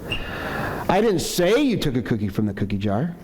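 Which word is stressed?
say. The stress falls on the word say. It was implied but not said outright. "maybe I'm accusing you, but I haven't said it yet"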